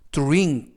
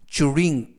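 First: The dr starts with a t-like sound. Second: The dr starts with a ch-like sound. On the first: "드르보다는 뚜르" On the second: "쭈르라고 발음하기도 합니다"

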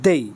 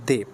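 First: The word ends in an 'ei' glide. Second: The word ends in a plain 'e' vowel. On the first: The speaker calls it right. "এটার সঠিক pronunciation হচ্ছে" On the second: The speaker calls it wrong. "এখানে অনেকে উচ্চারণ করে দয়কারে দে"

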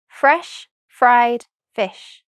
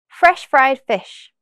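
First: The phrase is said very slowly. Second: The phrase is said very quickly. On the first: "once very slowly" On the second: "the second time very quickly"

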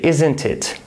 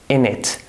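First: Both words are said in full, slowly. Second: It is squeezed into one quick word, innit. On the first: The speaker calls it wrong. "That's really slow and not practical" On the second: The speaker calls it right. "They say, in it"

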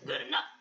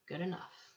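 First: It is said in an excited, non-calm voice. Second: It is said in a calm, flat voice.

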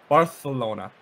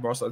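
First: The c is said as a lisped th sound. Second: The c is said as a plain s sound.

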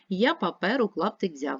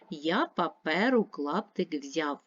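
First: It is read at a fast pace. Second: It is read at a moderate pace. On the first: "Швидше" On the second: "Читаємо разом"

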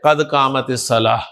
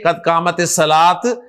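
First: The last word ends with a soft h sound. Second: The last word ends with a t sound. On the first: The speaker calls it right. "हा के साथ प्रोनाउंस करें" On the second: The speaker calls it wrong. "ना के कद कामत सलात"

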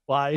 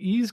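First: The name is pronounced like 'wise'. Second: The name is pronounced like 'ease'. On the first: The speaker calls it right. "It's Wise" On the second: The speaker calls it wrong. "You're mispronouncing it"

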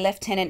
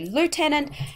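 First: It is pronounced the British way. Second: It is pronounced the American way. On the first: "In Britain, they tend to say lieutenant" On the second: "In America, they tend to say lieutenant"

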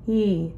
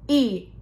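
First: The vowel starts cleanly and gently, without breathiness. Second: The vowel starts with a hard, grinding catch. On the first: The speaker calls it right. "imagine an H before the E, but don't quite do the H" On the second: The speaker calls it wrong. "the first example was those grinding of the vocal cords"

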